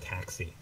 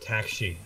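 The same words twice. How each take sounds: First: It is said with an English accent. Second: It is said with a Korean accent. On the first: "instead of taxi" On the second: "a Korean way of saying a English word"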